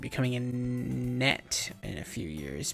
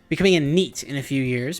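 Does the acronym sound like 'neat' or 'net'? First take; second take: net; neat. First: The acronym is said with a short vowel, like 'net'. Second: The acronym is said with a long vowel, like 'neat'. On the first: The speaker calls it wrong. "I don't think I said that right" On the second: The speaker calls it right. "I'm thinking it might be neat"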